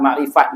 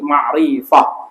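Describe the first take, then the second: First: The word ends with a t sound. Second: The word ends with an h sound. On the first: This is the everyday Malay form of the word. "Sebut biasa sebut ma'rifat" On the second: This is the original form used when stopping on the word. "bunyi ha ujung dia jadi ma'rifah"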